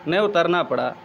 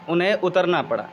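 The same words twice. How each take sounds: The two takes are said the same way.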